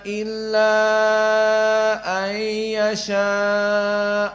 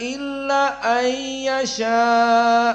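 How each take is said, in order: First: The final vowel of illa is held long. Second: The final vowel of illa is kept short. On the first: It follows one reading tradition's rule for this lengthening. "Illa mad jaiz munfasil dibaca empat" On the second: It follows another reading tradition's rule for this lengthening. "Maka illa an hanya dua harokat"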